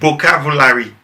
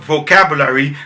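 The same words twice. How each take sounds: First: The word starts with a B sound. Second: The word starts with a V sound. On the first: The speaker calls it wrong. "some people would switch B for V" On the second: The speaker calls it right. "like in the word vocabulary"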